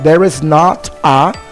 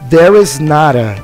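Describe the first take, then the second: First: The t is a clear, separate t sound. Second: The t is a quick flap linked to a. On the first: "Mas você pode dizer também there is not a" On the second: "Então a gente pode pronunciar there is nada, fica mais fluido"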